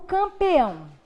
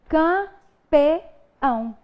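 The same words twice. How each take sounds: First: The word is said smoothly in one go. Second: The word is split with pauses between syllables.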